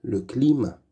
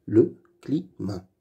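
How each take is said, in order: First: Said in the usual way. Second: Le climat split into le, cli, mat; syllable by syllable. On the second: Shown as a demonstration. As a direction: read "Le climat" in separate syllables. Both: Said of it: "Lis les mots".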